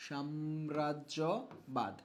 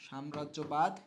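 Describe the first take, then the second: First: Very slow, low and softer; dragged out for students to copy; slow dictation. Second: Said in the usual way. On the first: Shown as a demonstration. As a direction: stretch the word syllable by syllable. Teacher spelling out the term slowly.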